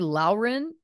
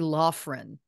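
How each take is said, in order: First: The surname sounds just like the name Lauren. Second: The surname sounds different from the name Lauren. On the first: The speaker calls it wrong. "I was saying Lauren, which I, I realized made, made it sound like it was my own name" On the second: The speaker calls it right. "which I realized must be Laughren"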